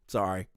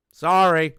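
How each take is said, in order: First: Said in the usual way. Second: Emphatic mock apology. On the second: Real, not acted. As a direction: belt out a sarcastic apology.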